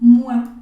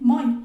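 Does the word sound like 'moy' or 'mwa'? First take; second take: mwa; moy. First: The vowels are said as a 'wa' sound. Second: The vowels are read as a plain 'oi' sound. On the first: The speaker calls it right. "se va a pronunciar realmente como si fuese una, eh, una U y una A" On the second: The speaker calls it wrong. "en español yo lo pronunciaría como moi"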